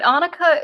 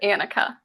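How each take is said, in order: First: The name is said the Scandinavian way. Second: The name is said a non-Scandinavian way. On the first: "the Scandinavian way to pronounce it" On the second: "I pronounce it Annika"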